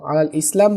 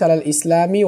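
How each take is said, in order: First: It ends on m with a stop. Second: It ends with an i vowel linking onward. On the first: The phrase is ended there. "আলাল ইসলাম বলে থামতে পারেন" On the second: It runs on into the next phrase. "মিলাই দেওয়া রয়েছে"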